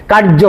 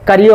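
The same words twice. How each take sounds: First: কার্য said as কার্জো, with a hard জ sound; কার্য as কার্জো, with no ইয় glide; সঠিক বাংলা উচ্চারণ. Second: কার্য said as কারিয়ো, with a ইয় glide; ভুল হিন্দি ধাঁচের উচ্চারণ. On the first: (কার্য উচ্চারণ কার্জো, বর্গীয় জ দিয়ে) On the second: (কার্য উচ্চারণ কারিয়ো, অন্তস্থ য দিয়ে) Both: Shown as a demonstration. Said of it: "কার্য হয় না".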